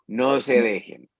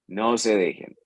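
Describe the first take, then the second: Both takes have the same delivery.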